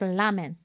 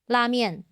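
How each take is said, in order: First: The word has a Japanese pronunciation. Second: The word has a Chinese pronunciation. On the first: "el japonés su pronunciación es ramen" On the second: "en China dijimos ramen"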